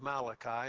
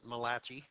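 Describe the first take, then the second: First: The name is said the usual English way. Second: The name is said with an Italian-style sound. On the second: "Those of us who have Italian heritage, we pronounce it Malachi"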